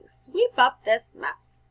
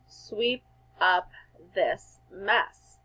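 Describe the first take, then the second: First: The sentence is said with strong, lively feeling. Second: The sentence is said in a plain, even voice.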